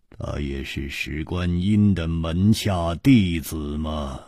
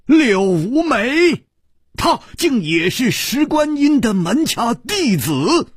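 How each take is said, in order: First: Calm revelation, deliberate; measured statement. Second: Shocked disbelief. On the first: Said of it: "一字字的说". (楚留香低沉缓慢地揭示) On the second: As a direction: gasp the words out, stunned. 柳无眉惊闻真相. (柳无眉震惊地反问) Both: Acted.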